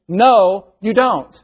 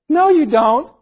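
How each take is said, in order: First: It is said in a flat, matter-of-fact tone. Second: It is said in a coy, teasing tone. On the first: The claim is flatly rejected as untrue. The speaker calls it right. "empirical, evident, scientific, factual kind of" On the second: The listener is invited to keep persuading. The speaker calls it wrong. "And I don't mean like, no, you don't. Like, tell me more. Convince me"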